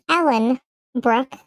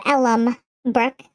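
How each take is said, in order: First: "Ellen" ending in a clear N. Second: "Ellum" ending in a clear M. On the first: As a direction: say "Ellen" with N before "Brooke". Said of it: "closed captioning said that as". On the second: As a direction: say "Ellum" with M before "Brooke". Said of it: "instead of Ellum Brooke". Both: Shown as a demonstration.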